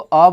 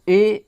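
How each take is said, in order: First: The word is said with a short 'uh' vowel. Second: The word is said with a long 'ay' vowel. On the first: The speaker calls it right. "ज्यादातर इसको अ बोलिएगा" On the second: The speaker calls it wrong. "ए बोलना थोड़ा wrong लगता है"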